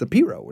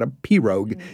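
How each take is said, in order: First: The word is said the local way. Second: The word is said just as spelled. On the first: The speaker is from the area. The speaker calls it right. "a lot of us from here know it's a P-Rogue" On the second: The speaker is not from the area. The speaker calls it wrong. "So he pronounced it just as it's spelled"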